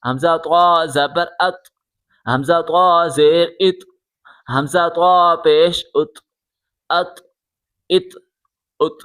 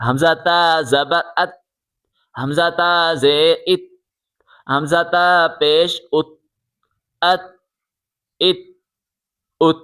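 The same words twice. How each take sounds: First: "طا" with a heavy, full t; heavy emphatic t closing each "ات"; thick t. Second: "تا" with a light, thin t; light t closing each "ات". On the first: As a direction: make "طا" and "ات" thick and rounded. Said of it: "اب یہ والی طا موٹی ہے". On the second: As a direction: keep "تا" and "ات" thin, tongue forward. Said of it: "پہلے والی تا باریک تھی". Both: Shown as a demonstration.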